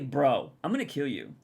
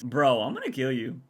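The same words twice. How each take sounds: First: It is said in a serious, threatening tone. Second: It is said in a light, joking tone. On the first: The speaker might really mean harm. "I'd be a little worried" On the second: The speaker is only kidding around. "if their tone was like this, ... that's a lot less threatening"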